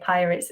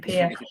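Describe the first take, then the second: First: The name ends with a 'ts' sound. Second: The name ends on an open vowel. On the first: The speaker calls it wrong. "I always say pirates" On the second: The speaker calls it right. "It's actually Pia"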